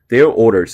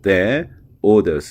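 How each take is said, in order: First: The R sounds are clearly pronounced. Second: The R sounds are dropped. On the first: "이렇게 들리는 게 아니라" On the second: "영국 발음의 특징상 이제 받침의 R 발음이 죽지 않습니까"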